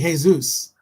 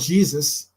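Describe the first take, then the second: First: The name begins with an H sound. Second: The name begins with a J sound. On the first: The speaker calls it right. "You say Jesus. ... it's pronounced like H" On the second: The speaker calls it wrong. "you don't say"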